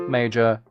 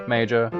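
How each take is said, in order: Both takes have the same delivery.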